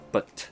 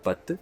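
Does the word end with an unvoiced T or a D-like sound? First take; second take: unvoiced T; D-like. First: It ends with an unvoiced T sound. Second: It ends with a voiced D-like sound. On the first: The speaker calls it right. "the unvoiced consonants like but" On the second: The speaker calls it wrong. "with the D sound as a strong vocal sound"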